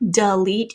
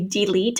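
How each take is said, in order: First: The first vowel is reduced to a schwa. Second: The first vowel is a full long E. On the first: The speaker calls it right. "you can hear that duh" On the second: The speaker calls it wrong. "we don't say delete"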